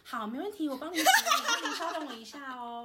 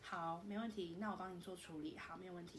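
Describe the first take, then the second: First: It is said with a smile, brightly. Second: It is said without a smile, flatly.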